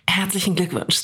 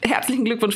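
First: It is said in a sultry, seductive voice. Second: It is said in a radio announcer voice. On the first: "meine Geburtstagsstimme ist eigentlich" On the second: "Das ist meine Radio-Geburtstagsstimme"

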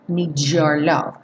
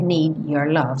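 First: The d and y merge into a j sound. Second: The d and y stay as separate sounds. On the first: "o need com your está soando um D-J-O" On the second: "Poderia ser need your love, sem problemas"

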